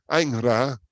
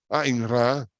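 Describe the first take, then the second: No difference in how they are said.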